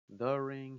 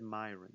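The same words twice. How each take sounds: First: "the" hit loud, said as a full word; stress on THE. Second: "My" carries the weight, ahead of "ring"; stress on MY. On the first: Fan ruling out what Roman didn't say, loud stress on "the". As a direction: punch "the" as the wrong word. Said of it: "He didn't say". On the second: Wrestling fan quoting Roman's exact word, stress on "My". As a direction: lean on "My" to claim the ring. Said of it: "He didn't say the ring". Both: Shown as a demonstration.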